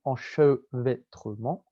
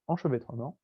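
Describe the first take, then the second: First: ENCHEVÊTREMENT slowly broken into separate syllables. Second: Said in the usual way. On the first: Shown as a demonstration. Teacher hammering a key term for students, "enchevêtrement" in slow, separated syllables. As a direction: spell out "enchevêtrement" beat by beat, drawn out.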